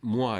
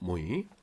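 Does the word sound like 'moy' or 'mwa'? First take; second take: mwa; moy. First: It is said with a 'wa' sound, like mwa. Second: It is said with an 'oy' sound, like moy. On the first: The speaker calls it wrong. "불어에서 moi 이렇게 써놓으면 무아라고 해서" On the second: The speaker calls it right. "스펠링 그대로 읽으면 됩니다. 모이예요"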